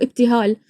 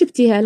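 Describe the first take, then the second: First: "ابتهال" with a full, open long a; no imala. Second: "ابتهال" with the long a tilted toward e; imala pronunciation. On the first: Showing how Iraqis say her name, "ابتهال" without imala. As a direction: say "ابتهال" the Iraqi way, the a never tilted toward e. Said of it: "نقولوا ابتهال". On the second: Showing how Iraqis don't say her name, "ابتهال" with imala. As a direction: say "ابتهال" with a fronted, e-like final vowel. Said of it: "إحنا في العراق ما نقولوش ابتهال". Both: Shown as a demonstration.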